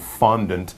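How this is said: It is pronounced the English way. "the common English pronunciation fondant"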